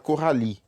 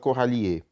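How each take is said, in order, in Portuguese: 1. O nome termina no i, o e final é mudo. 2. O e final é pronunciado depois do i. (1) "a gente não vai pronunciar esse E ... a gente fala Coralie" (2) "A gente não fala Coralie"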